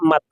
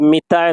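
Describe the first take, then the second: First: The first vowel is an 'a' sound. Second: The first vowel is an 'i' sound. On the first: This is the standard form. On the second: This is the colloquial form.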